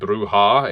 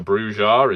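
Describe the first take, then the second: First: The name is pronounced the Spanish way. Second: The name is pronounced an anglicized way. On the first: "technically the Spanish pronunciation would be Bruja" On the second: "so Bruja is just as valid"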